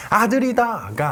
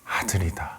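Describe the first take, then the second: First: Bright, excited cry of a new parent; proud happy exclamation; joyful announcement. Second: Hushed, fearful whisper, lower and softer. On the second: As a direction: breathe the news so no one hears. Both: Shown as a demonstration. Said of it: "아니라".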